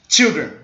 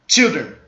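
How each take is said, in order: No difference in how they are said.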